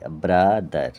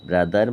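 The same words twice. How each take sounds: First: ব্রাদার drawn out as ব্রা, দার; split in two syllables. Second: Said in the usual way. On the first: Shown as a demonstration. Teacher breaking up a word for pupils, ব্রাদার as ব্রা-দার. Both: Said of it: "দুবার ভাঙা হচ্ছে".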